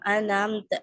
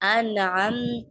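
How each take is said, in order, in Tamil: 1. இரண்டு எழுத்துகளும் ஹம்சா ஒலியுடன் தொடங்குகின்றன. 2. முதலில் ஹம்சா, பிறகு அயின் ஒலி. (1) "ரெண்டுத்துக்குமே ஹம்சா கொடுத்துருவாங்க" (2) "ஃபர்ஸ்ட் ஹம்சா, செகண்ட் ஐன்"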